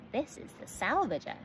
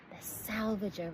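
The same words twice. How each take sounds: First: A touch of pride; proudly. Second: Amazed repeat. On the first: Gus presenting his ship to the girls, proud. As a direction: announce the ship's name proudly. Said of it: "said Gus most proudly". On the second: Dot echoing the ship's name, slow and awed. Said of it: "repeated Dot". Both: A narrator's reading.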